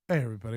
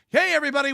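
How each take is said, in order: First: It is said with low, flat energy. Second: It is said with loud, lively energy. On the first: "Before the show, he's he was like" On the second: "now he's got high energy"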